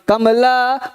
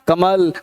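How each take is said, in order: First: The word ends with a full final vowel. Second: The word ends on the final consonant. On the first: The speaker calls it wrong. "कमला नहीं है" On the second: The speaker calls it right. "कमल है"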